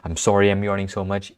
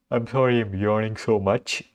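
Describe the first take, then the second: First: Said in the usual way. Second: Words stretched through a real yawn. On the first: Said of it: "I'll say that again". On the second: Real, not acted. To viewers at one AM, talking through a yawn. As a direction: apologize mid-yawn, mouth wide open. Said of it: "because I was yawning".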